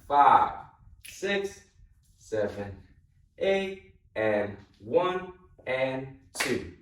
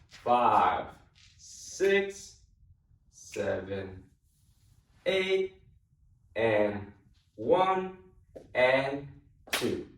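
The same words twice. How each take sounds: First: The counting is said faster. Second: The counting is said slowly.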